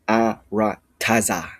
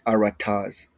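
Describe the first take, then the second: First: The final vowel is clearly pronounced. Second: The final vowel is dropped. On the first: The speaker calls it right. "you say the whole taza phoneme" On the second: The speaker calls it wrong. "not arataz"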